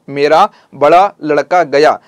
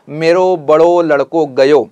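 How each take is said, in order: First: The words end with an 'aa' sound. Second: The words end with an 'o' sound. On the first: This is the Khari Boli form. "यहां पर आ का लहजा निकलता है खड़ी बोली में" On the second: This is the Braj Bhasha form. "वहां पर ऊ का लहजा निकलता है"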